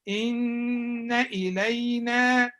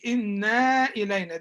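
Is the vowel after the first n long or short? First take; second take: short; long. First: The vowel after the first n stays short. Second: The vowel after the first n is drawn out. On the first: The speaker calls it right. "Here there is غنة but there is no alif" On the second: The speaker calls it wrong. "They say إنا إلينا. This is wrong"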